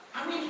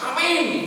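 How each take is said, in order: First: The word is said softly and half-heartedly. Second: The word is said very loudly. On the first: The speaker just goes along with others. The speaker calls it wrong. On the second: The speaker truly agrees. The speaker calls it right. "aminnya paling keras"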